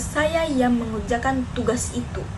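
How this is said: The stress falls on the word tugas. It was the task and not something else. "Penekanan pada tugas"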